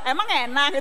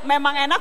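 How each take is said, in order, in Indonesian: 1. Diucapkan dengan nada mengejek dan sarkastik. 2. Diucapkan dengan nada biasa dan tulus. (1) "itu lain lagi" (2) "berarti enak"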